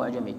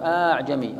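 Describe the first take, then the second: First: أعجمي with a single short opening a; one hamza dropped. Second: أعجمي with a long opening aa before the ayn; two hamzas. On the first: Teacher gives the alternative reading, short start on أعجمي. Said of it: "فتطرح إحداهما". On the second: Teacher shows two adjacent hamzas, drawn-out start on أعجمي. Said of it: "همزتين متلاصقتين فتطرح إحداهما". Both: Shown as a demonstration.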